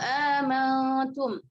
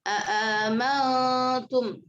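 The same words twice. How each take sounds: First: Only one hamza is pronounced; the first is dropped. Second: Both hamzas are fully pronounced, with no lengthening. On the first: "Hafaz hanya dengan satu hamzah saja ya. Jadi hamzah yang pertamanya dibuang" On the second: "membaca dengan tahqiq kedua hamzahnya tanpa idghal"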